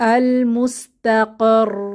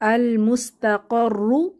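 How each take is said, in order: First: The word ends on a held r sound. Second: The word ends with a doubled r and a vowel. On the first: The reading stops at this word. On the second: The reading continues without stopping.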